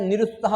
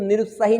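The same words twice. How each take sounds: First: निरुत्साह ending on "saah"; निरुत्साह as ni-rut-SAAH, falling; correct ending. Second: निरुत्साही ending in a long "hee"; निरुत्साही as ni-rut-saa-HEE; wrong ending. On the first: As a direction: say निरुत्साह without a final I. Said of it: "निरुत्साह होता है". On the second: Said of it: "बिल्कुल निरुत्साही नहीं होता है". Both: Shown as a demonstration.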